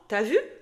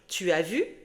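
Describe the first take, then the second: First: Some sounds are dropped in casual speech. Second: Every syllable is pronounced fully and clearly. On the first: This is how people actually say it. "tu vas entendre" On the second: This is how it is written. "Tu vas lire"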